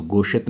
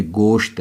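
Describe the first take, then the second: First: "गोशत" with an extra short vowel between sh and t; the misreading "गोशत", sh and t split by a vowel; mispronounced gosht. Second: "गोश्त" as one long syllable, sh running straight into t; correct gosht. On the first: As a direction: say "गोशत" as two syllables, go-shat. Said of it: "तो गोशत नहीं". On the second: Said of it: "पढ़ना, ये गोश्त है". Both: Shown as a demonstration.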